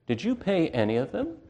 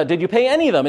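First: A softer, sly accusing question; taunting Satan. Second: Pressing banker. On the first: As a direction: needle them quietly like the accuser. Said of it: "says Satan". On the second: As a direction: press him like a banker demanding answers. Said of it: "He says". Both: Retold or imitated.

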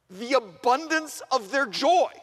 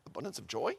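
First: "abundance of their joy" read out big and slow, high on "joy"; emphatic verse reading. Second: "Abundance of joy?" dropped low and soft as a question; puzzled double-take. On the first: Preacher reads the verse to the students, "abundance of their joy" slow and emphatic. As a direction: proclaim "the abundance of their joy", stretching "joy" higher. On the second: Preacher halts the reading to question it, "Abundance of joy?" low and puzzled. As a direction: query "Abundance of joy?" much lower and quieter. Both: Acted.

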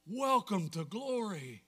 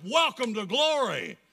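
First: Slow, measured welcome at normal volume; awed repeat. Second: Loud, high proclamation; exultant shout. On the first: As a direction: let the words sink in slowly. Repeats the climax more softly. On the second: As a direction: shout the welcome out to everyone. Exultant climax of the recitation. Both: Real, not acted.

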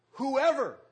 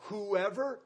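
First: Whoever rung out higher and louder; preacher to congregation, hitting whoever hard; stress on whoever. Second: Said in the usual way. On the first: Acted. The preacher warns the congregation that no one is exempt, whoever punched louder.

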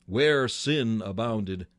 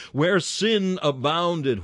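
First: "Where sin abounded," slow and measured, falling at the end; slow quoted phrase. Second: "Where sin abounded," slow, higher and louder, punching "sin"; slow emphatic quote. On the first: Preacher first quoting the apostle, slow and measured. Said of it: "Where sin abounded," what?". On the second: Preacher pressing the apostle's words on the sinner, slow and loud. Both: Shown as a demonstration.

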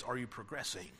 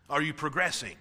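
First: Asked softly, almost to themselves; soft question. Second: Said in the usual way. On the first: Shown as a demonstration. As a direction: drop the voice to a gentle, searching question.

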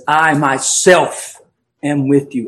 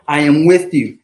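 First: I myself drawn out slowly, stress on I; emphatic I myself. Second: Said in the usual way. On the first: Shown as a demonstration. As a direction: lean hard on "I myself", slow and deliberate. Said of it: "And that's emphatic". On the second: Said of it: "It's an emphatic statement from his Lord".

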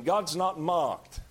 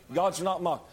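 First: God's not mocked, each word slowly weighed; solemn, drawn-out warning; slow emphasis. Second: Said in the usual way. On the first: Shown as a demonstration. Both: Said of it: "let me tell you something".

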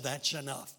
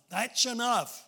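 First: Said in the usual way. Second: Second "enough" louder and higher; commanding. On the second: Retold or imitated. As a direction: call out "enough" with force. God stops Abraham, repeated louder.

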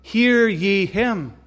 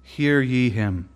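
First: Hear ye him, higher, louder, very slow; preacher's call. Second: Hushed voice of God. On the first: Real, not acted. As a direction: drive the appeal home, each word stretched. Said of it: "preacher's closing appeal". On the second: Acted. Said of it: "God proclaimed".

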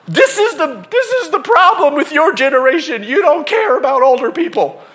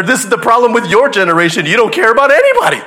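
First: Higher, louder mock scold at a generation; the lady blaming the young guy's generation; mock angry lecture. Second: Louder, faster pointed comeback; the kid throwing the line back at her; mock angry retort. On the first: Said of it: "these two people are yelling at each other". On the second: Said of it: "he points there".

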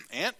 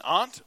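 First: Aunt with the short vowel of "cat"; "ant" pronunciation. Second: Aunt rhyming with "font"; "ahnt" pronunciation. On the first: Preacher correcting himself mid-reading, aunt pronounced "ant". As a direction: say aunt just like the insect "ant". Repeats word in other pronunciation. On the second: Preacher reading Leviticus aloud, aunt pronounced "ahnt". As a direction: say aunt as "ahnt", with a broad open vowel. Word said two ways while reading. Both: Shown as a demonstration.

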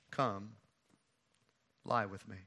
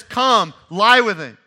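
First: Soft, low invitation; quiet seduction. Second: Emphatic retelling. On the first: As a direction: murmur it low and close. Amnon makes his move quietly. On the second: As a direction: declaim it loud from the pulpit. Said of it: "Amnon says". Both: Retold or imitated.

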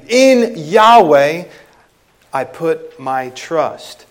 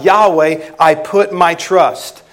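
First: Preacher showing the emphatic word order. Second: Said in the usual way. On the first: Shown as a demonstration. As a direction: lift and stress "In Yahweh", settle gently on "I put my trust". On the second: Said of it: "So the preposition".

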